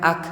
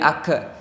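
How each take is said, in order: First: The final k is cut off without any echo. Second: The final k is released with an echo vowel. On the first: The speaker calls it right. "cuman ak" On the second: The speaker calls it wrong. "nggak ada pantulan jadi ake ake nggak jadi ake"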